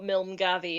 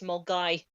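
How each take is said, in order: First: The name ends with a clear v sound. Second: The name ends without any v sound. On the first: The speaker calls it wrong. "it's not Milmgavi" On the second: The speaker calls it right. "it's Mulgai"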